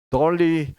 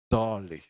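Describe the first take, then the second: First: The name is said with Korean-style pronunciation. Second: The name is said with American-style pronunciation. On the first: "한국 발음식으로 발음하면 돌리지만" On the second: "미국식으로 발음하면 본토식으로 하면 dolly예요"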